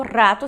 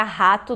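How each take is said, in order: First: "rato" with rolled initial R; Spanish R. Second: "rato" with an H sound at the start; Portuguese R. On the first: Teacher names the Spanish word, rolled R in "rato". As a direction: trill the opening of "rato". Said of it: "esse R forte". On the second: Teacher names the Portuguese animal, H-like R in "rato". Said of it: "do português o animal". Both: Shown as a demonstration.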